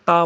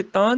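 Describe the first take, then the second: First: ਤਾ with pure 'aa'; corrected oral vowel. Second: ਤਾਂ nasalised, as 'taan'; wrong nasal vowel. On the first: Teacher correcting, ਤਾ without nasal. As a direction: keep ਤਾ out of the nose. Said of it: "ਤਾ ਬੋਲਣਾ". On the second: Teacher showing the mistake, ਤਾਂ with nasal ending. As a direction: end ਤਾਂ in the nose. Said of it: "ਤਾਂ ਨਹੀਂ ਬੋਲਣਾ". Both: Shown as a demonstration.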